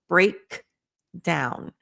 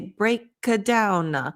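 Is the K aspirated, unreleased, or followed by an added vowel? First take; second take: aspirated; added vowel. First: The K is fully released with a puff of air. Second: A short vowel is added after the K. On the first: "when you learn it correctly" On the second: "Don't add a vowel at the end"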